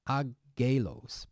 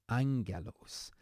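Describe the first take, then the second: First: There is no n sound before the g. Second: An n sound comes before the g. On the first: The speaker calls it wrong. "here it's not agelos" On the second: The speaker calls it right. "but angelos"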